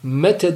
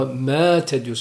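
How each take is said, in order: First: The first vowel is short. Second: The first vowel is long. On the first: The vowel letter is not counted in the meter. The speaker calls it wrong. "demiyorsun مَتَ مَتَ desen şu elife itibar edilmez şiirde çünkü sesi yok" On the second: The vowel letter counts as a silent letter in the meter. The speaker calls it right. "ama مَاتَ"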